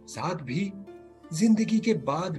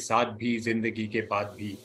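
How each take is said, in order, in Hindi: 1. शब्द "भी" पर तेज़ ज़ोर दिया गया है। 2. यह बराबर लहजे में पढ़ा गया है, किसी शब्द पर ज़ोर नहीं है। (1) "भी पे भी स्ट्रेस करते हैं" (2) "वो तो अब ना ऐसे पड़ेगा"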